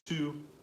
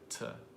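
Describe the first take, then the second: First: The vowel is a full 'oo' sound. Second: The vowel is a short, reduced 'uh' sound. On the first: "the word to" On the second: "almost always pronounced like to"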